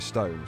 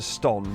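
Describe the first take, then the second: First: The vowel is long. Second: The vowel is short. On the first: The speaker calls it right. "You say stone" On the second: The speaker calls it wrong. "You don't pronounce it ston"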